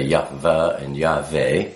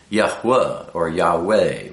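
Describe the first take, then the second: First: "Yahweh" with a V in place of the W; hard V starting the second syllable of "Yahweh"; V pronunciation. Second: "Yahweh" with a W sound opening the second syllable; "Yahweh" as Yah-hwah or Yah-way, with W; W pronunciation. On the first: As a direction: say "Yahweh" as Yah-vah or Yah-vay. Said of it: "We don't say Yahweh and Yahweh". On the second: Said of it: "We say Yahweh or Yahweh". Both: Shown as a demonstration.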